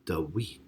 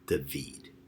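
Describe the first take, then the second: First: The middle consonant is a W sound. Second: The middle consonant is a V sound. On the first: This is how it was pronounced in ancient times. "the V was really pronounced as a W, and the second D in David was actually pronounced as T H" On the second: This is how it is pronounced today. "which we would pronounce as a V, such as in David, in Hebrew"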